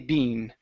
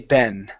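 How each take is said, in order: First: The word has a long ee vowel. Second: The word has a short eh vowel. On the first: "in the U K, they say bean" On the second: "In the U S, we say ben"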